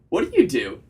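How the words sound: The voice falls at the end like a statement. The speaker calls it right.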